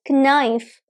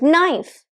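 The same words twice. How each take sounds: First: The word starts with a k sound. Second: The word starts with an n sound. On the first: The speaker calls it wrong. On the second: The speaker calls it right.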